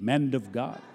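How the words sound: It is said in a Southern accent, like "mand".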